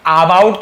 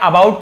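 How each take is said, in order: First: "about" opened as aa-bout; wrong long-aa about. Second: "about" opened with an unstressed uh; short-a about. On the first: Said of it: "about तो नहीं पढ़ा मैंने". ("about" को लंबे आ से, आबाउट) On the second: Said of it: "about पढ़ा है". ("about" को छोटे अ से, अबाउट) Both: Shown as a demonstration.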